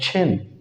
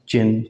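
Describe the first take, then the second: First: The first sound has a puff of air. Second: The first sound has no puff of air. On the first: The speaker calls it right. "This is called छिन। छे, छे की आवाज" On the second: The speaker calls it wrong. "ये चे नहीं होता, जैसे हम कहते हैं ये चिन, चिन नहीं है"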